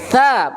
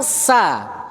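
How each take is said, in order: First: The consonant is a soft 'th' sound. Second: The consonant is a plain hissing 's' sound. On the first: The speaker calls it right. "Maka harus terucap benar" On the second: The speaker calls it wrong. "bukan sa"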